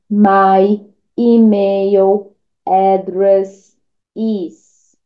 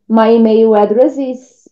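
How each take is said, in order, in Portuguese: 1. 'address' e 'is' são ditas como palavras separadas. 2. 'address' e 'is' são ditas juntas, como um som só. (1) "em vez de ficar falando assim" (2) "Junte address com is"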